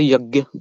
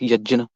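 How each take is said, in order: First: The middle of the word sounds like 'gy'. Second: The middle of the word sounds like 'jn'. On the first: This is the everyday way of saying it. "I say yagya" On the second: This is the formal classical way of saying it. "go in the proper Sanskrit term, we can call it yajna"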